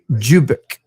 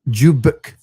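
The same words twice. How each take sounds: First: The name begins with a J-like sound. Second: The same.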